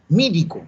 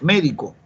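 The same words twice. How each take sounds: First: "Médico" said as "mídico", a little higher; Andean e-to-i. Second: "médico" with a clear e in the first syllable; correct pronunciation. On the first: Acted. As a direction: nephew repeating "Médico" with i for e. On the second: Shown as a demonstration. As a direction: correct him with a plain "médico", mé not mí. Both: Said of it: "le cambió la E por la I".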